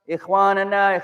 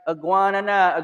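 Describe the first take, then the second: First: It has a raspy kh sound in the throat. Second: It has a hard g sound instead of kh. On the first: The speaker calls it right. "you try to tell the brother" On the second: The speaker calls it wrong. "we say it like"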